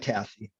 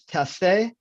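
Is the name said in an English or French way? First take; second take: English; French. First: The name is said in an English way. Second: The name is said in a Quebec French way. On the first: This is the form the owner uses day to day. "I go by" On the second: This is the original form of the name. "If if we want to get pure Quebecois about it"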